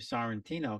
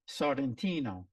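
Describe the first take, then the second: First: The R is not rolled. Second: The R is rolled. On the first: This is the American way of saying it. "we don't roll the R's here in America" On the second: This is the Italian way of saying it. "there it's Sorrentino"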